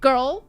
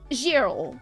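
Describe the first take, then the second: First: The word is said the usual English way. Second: The word is said following its spelling. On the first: The speaker calls it right. "The one you're teaching us" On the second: The speaker calls it wrong. "you would write the word the same way that that that you say it"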